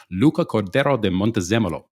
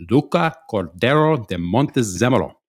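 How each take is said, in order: First: Luca Cordero de Montezemolo said with rolling Italian vowels; careful Italian name. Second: Luca Cordero de Montezemolo proclaimed louder, with theatrical Italian flourish; grand Italian name. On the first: Introducing a glorious Shakespearean name, careful Italian pronunciation of Luca Cordero de Montezemolo. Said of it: "take a second to pronounce this".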